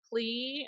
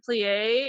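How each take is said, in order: First: The word ends in an 'ee' vowel. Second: The word ends in an 'ay' vowel. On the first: The speaker calls it wrong. "the guy said "plea" instead of" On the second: The speaker calls it right. "instead of "plié,""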